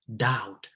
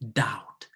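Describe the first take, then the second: No difference in how they are said.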